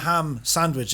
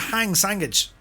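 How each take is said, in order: First: The word ham ends with an m sound. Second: The word ham ends with an ng sound. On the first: "We all know what a ham sandwich is" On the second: "but we call it a hang sandwich"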